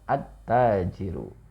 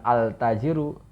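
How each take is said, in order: First: The 'l' merges into a doubled 't' sound. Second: The 'l' of the article is clearly pronounced. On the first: The speaker calls it right. "leburkan kepada huruf yang pada isimnya" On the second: The speaker calls it wrong. "bukan al-tajiru"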